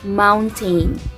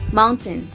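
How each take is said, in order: First: The last syllable rhymes with train. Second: The last syllable sounds like ten. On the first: The speaker calls it wrong. "Kasi mayroong tain, like train" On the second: The speaker calls it right. "Hindi siya yung tain, kundi ten"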